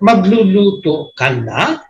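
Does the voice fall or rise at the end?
rises. The voice rises at the end, like a question.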